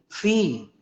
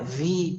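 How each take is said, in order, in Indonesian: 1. Diawali dengan bunyi f tak bersuara. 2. Diawali dengan bunyi v bersuara. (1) "enggak, fi" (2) "bukan ada campuran wawunya"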